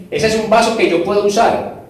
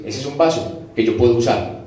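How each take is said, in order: First: Said in the usual way. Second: Lower, calm voice of God. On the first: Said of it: "repeats the line himself". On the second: Acted. God approves a clean vessel, lower and calm. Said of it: "Entonces Dios dice".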